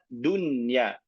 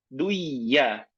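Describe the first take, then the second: First: The n sound is pronounced clearly. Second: The n sound is merged into the next sound. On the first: The speaker calls it right. "kita baca dunya" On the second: The speaker calls it wrong. "tidak kita katakan duya"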